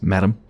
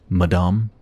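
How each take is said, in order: First: The word is pronounced the English way. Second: The word is pronounced the French way. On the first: The speaker calls it wrong. "that's not quite right" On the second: The speaker calls it right. "It's the French version of Madam"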